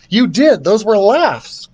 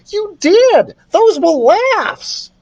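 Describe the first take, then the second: First: It is said in Carlos's character voice. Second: It is said in another character's voice.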